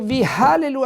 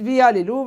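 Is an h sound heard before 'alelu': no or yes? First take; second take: yes; no. First: The word starts with a clear h sound. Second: The word starts with a vowel, no h sound. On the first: It praises God. The speaker calls it right. "Il faut dire, vi, alléluia, avec un hé" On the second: It turns the praise into making idols. The speaker calls it wrong. "Voilà comment ils disent"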